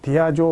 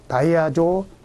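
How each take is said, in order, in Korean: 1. 첫 음절은 'di'로 발음합니다. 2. 첫 음절은 'dai'로 발음합니다.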